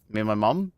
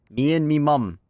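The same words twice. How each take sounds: First: Said in the usual way. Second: "Me and me mum" in a jokey British accent, said higher; mock British accent. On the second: Shown as a demonstration.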